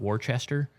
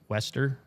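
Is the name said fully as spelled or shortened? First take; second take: as spelled; shortened. First: The name is said fully, following its spelling. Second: The name is shortened, sounding like Wester. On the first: This is the speaker's own habitual pronunciation. "I pronounce it like" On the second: This is how the name is said in the documentary. "apparently it's Wester"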